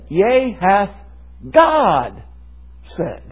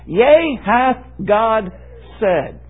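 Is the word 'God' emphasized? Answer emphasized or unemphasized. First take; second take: emphasized; unemphasized. First: The word God carries the main emphasis. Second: The word God is not the emphasized word. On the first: "Let me put the emphasis on a different word here" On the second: "than what I first said"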